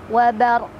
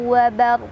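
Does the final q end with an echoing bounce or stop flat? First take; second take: bounce; bounce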